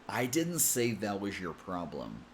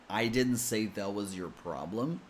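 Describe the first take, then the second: First: 'Was your' is joined with a zh sound. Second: 'Was your' is joined with a plain z sound. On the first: "some people connect with a J sound, the same sound we use in the word measure" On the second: "Some people connect with a Z sound"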